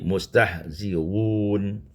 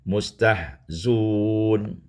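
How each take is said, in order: First: The hamza after 'zi' is softened, not fully stopped. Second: The hamza is dropped and 'z' takes 'u'. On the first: "Mentashilkan hamzah" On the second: "membuangkan hamzah dengan mendhammahkan zai"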